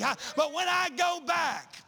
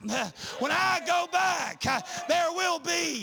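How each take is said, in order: First: Said in the usual way. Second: When I go back shouted, slowed, I stressed; slow down and punch I on the repeat; emphatic repeat. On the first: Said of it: "repeated louder". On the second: Shown as a demonstration. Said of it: "repeat with force".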